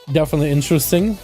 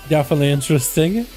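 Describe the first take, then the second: No difference in how they are said.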